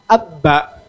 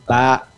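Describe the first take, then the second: First: A vowel comes before a doubled b sound. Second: It starts directly on a single b sound. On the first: The speaker calls it wrong. "Kan kita begitu" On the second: The speaker calls it right.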